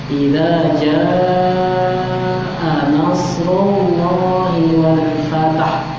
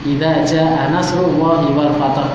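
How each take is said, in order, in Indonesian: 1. Dibaca pelan, vokal panjangnya ditahan. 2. Dibaca terburu-buru, vokal panjangnya dipendekkan. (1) "harus dihitung sekitar lima harokat" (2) "biasanya ngebut"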